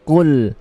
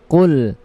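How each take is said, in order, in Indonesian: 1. Konsonan pertama adalah q yang tebal dan tidak berdesah. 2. Konsonan pertama adalah q yang tebal dan tidak berdesah.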